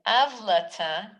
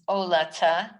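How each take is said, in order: First: It is said with a v sound. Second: It is said without a v sound. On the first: This is how the word is traditionally read aloud. "read as if there was a vav there" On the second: This is how the word is spelled. "It's written ayin lamed tav hey"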